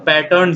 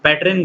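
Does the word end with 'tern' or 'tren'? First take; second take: tern; tren. First: The word ends with a 'tern' sound. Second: The word ends with a 'tren' sound. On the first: The speaker calls it right. "पैटर्न सही है" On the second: The speaker calls it wrong. "पैटर्न गलत है"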